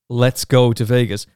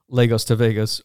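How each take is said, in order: First: The name begins with the two words 'let's go'. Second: The name begins with 'Lagos', like the city. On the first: The name is read as an invitation to go. The speaker calls it wrong. "First of all, there's no E there" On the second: The name refers to the city of Lagos. The speaker calls it right. "Lagos is a place. Lagos to Vegas, just the whole thing makes sense"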